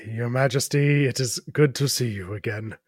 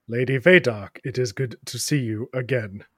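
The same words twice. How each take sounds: First: A hint of a humbled knight, formal; lightly voiced knight. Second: Lightly voiced knight. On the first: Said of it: "how you speak to your queen". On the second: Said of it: "that's not how you address me. Try again".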